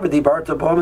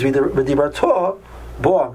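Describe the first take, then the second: First: The stress falls on the second-to-last syllable, bar. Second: The stress falls on the last syllable, ta. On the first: It describes speaking that already happened. The speaker calls it wrong. "And you spoke about it" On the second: It tells someone to speak in the future. The speaker calls it right. "And you should speak about it"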